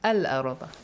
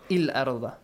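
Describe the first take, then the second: First: The word begins with an a vowel. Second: The word begins with an i vowel. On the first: The speaker calls it right. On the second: The speaker calls it wrong.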